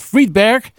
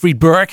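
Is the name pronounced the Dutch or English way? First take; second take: Dutch; English. First: The name is pronounced the Dutch way. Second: The name is pronounced the English way.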